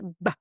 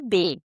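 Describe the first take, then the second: First: Only the letter's short consonant sound is said. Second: The letter is said as its full name. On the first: "mas o som do B é B" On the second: "o nome do B é B"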